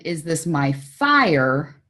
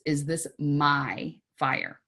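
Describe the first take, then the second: First: The stress falls on the word fire. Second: The stress falls on the word my. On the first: It asks whether the problem is truly an emergency. "Is it really a fire?" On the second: It asks whether the problem belongs to oneself or another. "emphasize different words. ... Yours or someone else's?"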